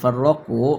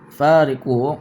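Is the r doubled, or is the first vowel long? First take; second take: doubled r; long vowel. First: The first vowel is short and r doubled. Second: The first vowel is long and r single. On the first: They split one religion into many. "dibaca dengan tasydid" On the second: They left the religion and abandoned it. "dibaca menggunakan alif"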